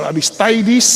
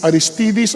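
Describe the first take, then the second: First: "Aristides" said as a-ris-tie-dees; "tie" pronunciation. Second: "Aristides" said as a-ris-tee-dees; "tee" pronunciation. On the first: Preacher offering the alternative pronunciation, "Aristides" with "tie". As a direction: make the third syllable of "Aristides" rhyme with "tie". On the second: Preacher comparing pronunciations of a name, "Aristides" with "tee". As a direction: give "Aristides" a long ee in the third syllable. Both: Shown as a demonstration. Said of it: "iba-iba yung pronunciation".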